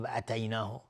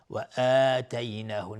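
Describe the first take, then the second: First: "اتیناه" with clipped first a, softer delivery; wrongly short vowel. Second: "آتیناه" with the first aa held two beats; stretched madd. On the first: Teacher shows the mistake, "اتیناه" with short a. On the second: Teacher gives the right length, "آتیناه" with long aa. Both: Shown as a demonstration.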